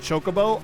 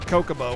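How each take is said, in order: First: The word begins with a ch sound. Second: The word begins with a k sound. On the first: The speaker calls it right. "had the voice acting and said Chocobo" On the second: The speaker calls it wrong. "I pronounced it Kokobo when I was a kid"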